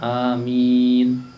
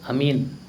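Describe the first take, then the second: First: Both vowels are drawn out long. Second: The vowels are said short, not drawn out. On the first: The speaker calls it right. "Yang benar amin" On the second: The speaker calls it wrong. "Yang salah itu amin. Kalau amin artinya beda lagi"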